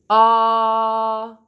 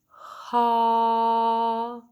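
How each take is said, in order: First: The vowel starts with a sharp catch in the throat. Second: The vowel starts with a puff of breath. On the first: "let's do a glottal ah" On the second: "an aspirate ah, it would be"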